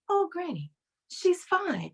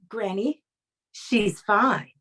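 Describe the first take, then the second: First: It is said gently and softly. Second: It is said firmly, with authority.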